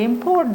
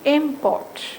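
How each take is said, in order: First: The stress is on the second syllable. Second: The stress is on the first syllable. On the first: The word is used as a verb. "it is used in verb's place" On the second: The word is used as a noun. "So the stress is on the first syllable"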